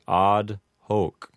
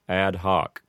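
First: The vowels are long. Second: The vowels are short. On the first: "correct Latin pronunciation ... give the word odd a long A sound ... the O in hoc would have a long O sound" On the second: "Americanized pronunciation ... shortening the vowels from long vowel sounds to short vowel sounds"

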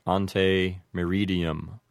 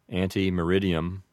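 First: It is pronounced the classical Latin way. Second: It is pronounced the American English way. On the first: "If you wanted to apply all the rules of classical Latin pronunciation, it might sound like" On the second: "the way we usually would say it in English with an Americanized pronunciation"

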